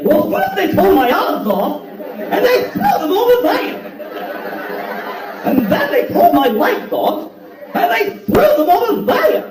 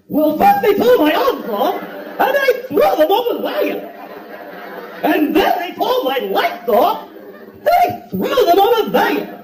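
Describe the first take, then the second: First: High, slow, hammed-up wail; wildly overacted lament, pitch soaring at the ends; hammed-up Scarecrow whining about his lost limbs; over-the-top Scarecrow. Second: High, slow, hammed-up wail; even bigger Scarecrow take. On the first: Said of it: "performance that's way over the top". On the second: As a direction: overact it further, pitch soaring. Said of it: "let him do another one".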